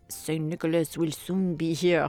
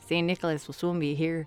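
First: It is spoken in a heavy French accent. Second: It is spoken in a Canadian accent. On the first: The speaker calls it wrong. "that's way too French" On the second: The speaker calls it right. "He sounds like Canadian, eh?"

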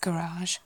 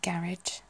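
First: It is said in an American accent. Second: It is said in a British accent. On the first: "I think that's particularly in the States, that's garage" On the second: "whereas we'd say garage"

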